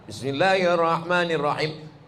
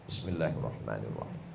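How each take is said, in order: First: It is said aloud, clearly audible. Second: It is said very quietly, barely audible.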